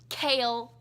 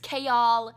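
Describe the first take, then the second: First: The name sounds like the word kale. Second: The name sounds like chaos without its ending. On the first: The speaker calls it wrong. "It's not Kale" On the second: The speaker calls it right. "it's chaos without the us"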